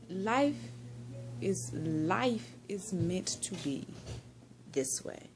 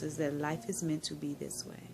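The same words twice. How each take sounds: First: Dreamy and slow. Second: Said in the usual way. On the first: Real, not acted. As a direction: let the words drift out slowly, almost whispered at the end. Savouring a life lesson.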